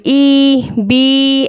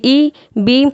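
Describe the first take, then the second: First: "ई, बी" with each vowel stretched long; drawn out, wrong. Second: "ई, बी" with short, unstretched vowels; not drawn out. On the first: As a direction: hold the vowels of "ई, बी" too long on a level note. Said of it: "इसे खींचेंगे नहीं बिल्कुल भी". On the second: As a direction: say "ई, बी" briefly, without dragging the vowels. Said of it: "इसको बिल्कुल ऐसे पढ़ेंगे". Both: Shown as a demonstration.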